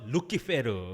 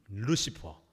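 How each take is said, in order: First: It is said loo-ki-pe-reu with a hard k. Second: It is said loo-si-pur with a soft s. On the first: This is the Latin pronunciation. "라틴어는 좀 세게 발음해서" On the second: This is the English pronunciation. "영어 발음으로는"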